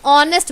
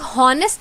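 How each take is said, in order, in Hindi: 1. शब्द स्वर से शुरू होता है, "h" साइलेंट है। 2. शब्द सुनाई देने वाली "h" ध्वनि से शुरू होता है। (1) "हम लोग ऑनेस्ट बोलते हैं" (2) "हम लोग हॉनेस्ट थोड़ी ना बोलते हैं"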